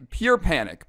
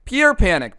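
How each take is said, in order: First: Said in the usual way. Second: "pure panic" punched higher and louder; emphatic repeat. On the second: Shown as a demonstration. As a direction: hit "pure" hard in "pure panic".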